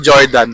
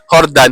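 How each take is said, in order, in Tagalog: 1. Nagsisimula ang pangalan sa tunog na J. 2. Nagsisimula ang pangalan sa tunog na H. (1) "hindi Jordan" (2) "Hordan, hindi Jordan"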